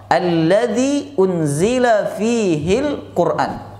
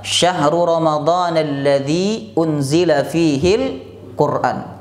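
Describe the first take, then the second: First: Slow, drawn-out chanted Arabic recitation; Quranic recitation. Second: Slowed, measured Arabic verse reading; Quran verse read out. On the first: Preacher reciting the verse to the congregation, slow and chanted. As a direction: stretch each syllable like Quran recitation. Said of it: "kata Allah". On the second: Preacher quoting the verse to his congregation, lightly intoned. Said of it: "Allah berfirman". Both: Shown as a demonstration.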